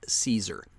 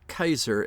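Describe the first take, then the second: First: The name begins with a soft S sound. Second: The name begins with a hard K sound. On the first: "not the anglicized Caesar" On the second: "as it is pronounced in Latin"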